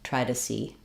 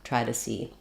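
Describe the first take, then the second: The two takes are said the same way.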